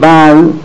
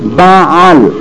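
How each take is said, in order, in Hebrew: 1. צליל העין הגרונית נשמט לגמרי. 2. צליל העין הגרונית נאמר בבירור. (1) "לא יגיד בעל חס ושלום, זה כופר. בעל כאילו בלי" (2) "יבטא את העין"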